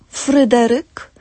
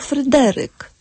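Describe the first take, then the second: First: The stress is on the first syllable. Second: The stress is on the second syllable. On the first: "możemy akcentować albo na trzecią sylabę" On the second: "albo na drugą sylabę od końca"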